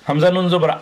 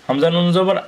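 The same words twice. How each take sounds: Both takes have the same delivery.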